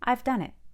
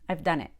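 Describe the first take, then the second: First: The vowel in I've is full and slower. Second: The vowel in I've is reduced and quick. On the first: "open your mouth all the way for I" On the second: "But that's really fast"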